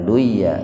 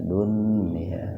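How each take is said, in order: First: The n sound merges into the y. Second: The n sound is pronounced clearly. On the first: The speaker calls it wrong. "Jangan duya" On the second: The speaker calls it right. "Artinya wajib dibaca jelas. Jadi dunia, nah itu dunia"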